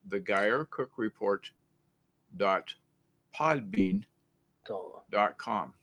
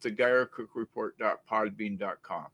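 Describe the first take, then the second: First: It is said slowly. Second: It is said at normal speed.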